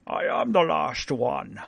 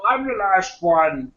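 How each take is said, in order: First: Lightly voiced Connery dragon, slow; a hint of Sean Connery as dragon. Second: Slow light Connery dragon echo; a hint of a Connery dragon line; Sean Connery dragon. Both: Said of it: "Sean Connery is the voice of the dragon".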